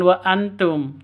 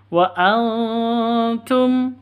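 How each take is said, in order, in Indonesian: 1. Huruf n diucapkan jelas tanpa dengung. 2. Huruf n samar dengan dengung. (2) "tapi wa antum, siap-siap dengung, ... samar"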